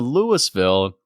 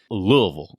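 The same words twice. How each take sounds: First: The first part is said with an S sound. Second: The first part is said without an S sound. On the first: The speaker calls it wrong. "and everybody on the plane goes, boo" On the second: The speaker calls it right. "there's no S in there whatsoever"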